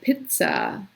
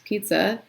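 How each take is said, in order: First: It is pronounced with a German ts and vowel. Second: It is pronounced with English sounds. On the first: "the vowel is different as well" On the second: "pizza in English"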